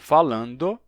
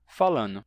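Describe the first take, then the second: First: The word keeps the nd before the final vowel. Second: The word has only n before the final vowel. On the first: "algo como falando" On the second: "se pronuncia falando"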